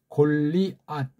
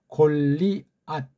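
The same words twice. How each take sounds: Both takes have the same delivery.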